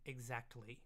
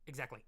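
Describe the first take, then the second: First: The word is said slowly and carefully. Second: The word comes out twisted and slurred. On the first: The speaker calls it right. "So I really have to slow that one down" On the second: The speaker calls it wrong. "I usually just twist it. It's, it usually comes out exactly"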